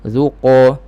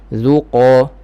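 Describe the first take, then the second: The two takes are said the same way.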